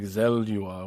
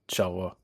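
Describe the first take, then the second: First: The name is pronounced in an exaggerated, drawn-out way. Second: The name is pronounced in a plain, simple way. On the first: The speaker calls it wrong. "I was over pronouncing the fuck out of it" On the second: The speaker calls it right. "when it's just Shelwa"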